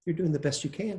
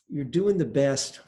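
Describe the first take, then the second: First: Lighter, accepting "You're doing the best you can"; good-news version. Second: Slower, resigned "You're doing the best"; bad-news version. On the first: Teacher shows students the good-news way, accepting. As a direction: offer it as welcome good news. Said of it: "The good news". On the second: Teacher shows students the bad-news way, resigned. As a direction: say it as grim bad news, dragging it out. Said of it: "I've got good news and bad news". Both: Shown as a demonstration.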